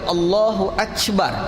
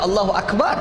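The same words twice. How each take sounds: First: The k in Akbar sounds like ch. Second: Akbar is said with a plain k sound. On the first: The speaker calls it wrong. "Jadi kaf jadi ca" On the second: The speaker calls it right. "Dia tak baca Allahu Akbar"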